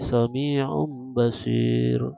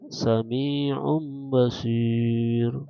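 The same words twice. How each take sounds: First: The last long vowel is held briefly. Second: The last long vowel is held moderately long. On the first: "atau pendek" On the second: "Atau sedang"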